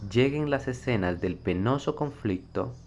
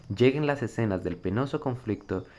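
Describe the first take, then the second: The two takes are said the same way.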